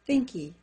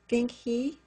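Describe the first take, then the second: First: The h in 'he' is dropped and linked. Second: The h in 'he' is clearly pronounced.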